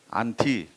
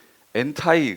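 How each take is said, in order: First: The word ends with an 'ee' sound. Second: The word ends with an 'ai' sound. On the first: This is the original Greek pronunciation. "제가 헬라어로 발음한 거예요" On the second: This is the English pronunciation. "영어 발음으로"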